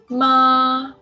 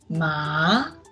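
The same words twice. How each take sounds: First: The pitch stays high and level. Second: The pitch rises from mid to high. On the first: "Ma is a flat tongue" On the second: "Second tongue is a rising tongue"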